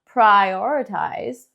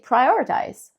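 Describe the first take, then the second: First: The word is stretched out and said big. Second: The word is said quickly, small and soft. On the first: "Lo alargamos, lo hacemos como más grande" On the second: "So now we make it smaller"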